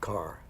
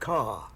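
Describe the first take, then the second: First: It is said with the final r sound. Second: It is said without the final r sound.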